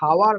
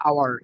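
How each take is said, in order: First: The word begins with an h sound. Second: The word begins with a vowel sound. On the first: The speaker calls it wrong. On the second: The speaker calls it right.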